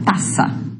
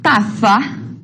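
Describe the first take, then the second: First: The z is said as a plain s sound. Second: The z is said with the tongue between the teeth. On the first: "também vai ser pronunciado como ta, taça" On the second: "seria pronunciado com a língua entre os dentes"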